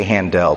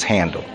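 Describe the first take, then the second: First: Handel with a full, stressed DELL ending. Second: Handel said just like the word handle; Handel as HAN-dul. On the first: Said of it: "is it Handel or Handel?". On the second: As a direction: stress Handel on HAN, swallow the ending. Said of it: "but I think it's Handel". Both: Shown as a demonstration.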